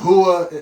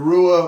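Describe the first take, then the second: First: The R is said as an H sound. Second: The R is said as an English R.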